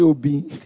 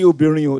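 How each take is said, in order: First: The word is clipped to two syllables. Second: The word is said in full, three syllables. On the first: Women are spoken of with disdain. The speaker calls it wrong. "they won't even allow themselves to pronounce it properly" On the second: Women are spoken of with respect. The speaker calls it right. "pronounce it properly"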